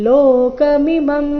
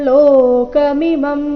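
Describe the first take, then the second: The two takes are said the same way.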